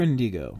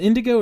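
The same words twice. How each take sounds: First: "Indigo" with a long middle ee, IN-dee-go; second pronunciation option. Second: "Indigo" with a short middle i, IN-dih-go; first pronunciation option. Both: Shown as a demonstration. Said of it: "is it Indigo or Indigo".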